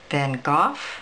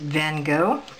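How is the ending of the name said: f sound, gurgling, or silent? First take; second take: f sound; silent. First: The name ends with an f sound. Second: The name ends with no final consonant sound. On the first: "where the GH is an F sound" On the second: "I generally make the GH silent"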